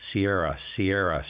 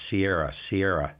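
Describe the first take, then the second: No difference in how they are said.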